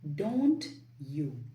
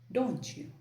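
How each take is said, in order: First: The T and Y sounds are kept separate. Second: The T and Y blend into a CH sound. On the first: "instead of saying don't you" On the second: "you can say don't you. The T plus Y sound becomes C H"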